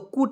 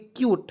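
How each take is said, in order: First: It is said as a short kut without y. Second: It is said as kyoot with a y glide. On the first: The speaker calls it wrong. "तो कुट नहीं पढ़ेंगे दोस्तों" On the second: The speaker calls it right. "इसे पढ़ेंगे क्यूट"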